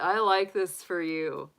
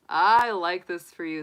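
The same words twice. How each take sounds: First: Slow, savoring. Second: I like this for you, with I hit hard and the whole line louder; emphatic repeat, louder. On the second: To the Sagittarius viewer, repeating the praise with emphasis, louder. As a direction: say it again with more force, punching I. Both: Real, not acted.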